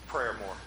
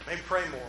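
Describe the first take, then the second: First: "Prayer more" mumbled low and soft, pray slurred into prayer; "Prayer more" said as a low, quiet slip of the tongue; flubbed pray. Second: "pray" said cleanly as one syllable, fixing the slip; "Maybe pray more" said carefully, "pray" clear and short; corrected pray. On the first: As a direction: trip over the word "pray", saying "Prayer" instead. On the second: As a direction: get "pray" right on the second try, plainly. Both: Real, not acted. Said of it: "I can't even say it".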